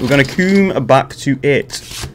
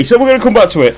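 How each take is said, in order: First: Measured, drawn-out delivery; slow, deliberate repeat. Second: Said in the usual way. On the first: Pretend. Gamer putting off the puzzle, slow deliberate repeat. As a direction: spell it out slowly. Repeats his own line slowly.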